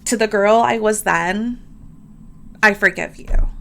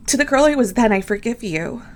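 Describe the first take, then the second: First: Said in the usual way. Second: Heartfelt affirmation. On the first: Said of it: "I saw this quote on Pinterest". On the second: Shown as a demonstration. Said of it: "Can you repeat that to yourself".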